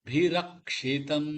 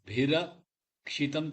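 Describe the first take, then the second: First: The word is said smoothly without a break. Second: The word is split with a break inside. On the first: The speaker calls it right. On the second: The speaker calls it wrong.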